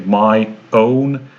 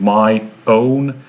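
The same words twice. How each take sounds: First: The two words are said separately with a break. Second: The same.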